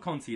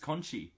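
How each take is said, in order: First: The final syllable begins with a plain t sound. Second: The final syllable begins with a ch sound. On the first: The speaker calls it wrong. "It's not Conti" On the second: The speaker calls it right. "it's Conchi"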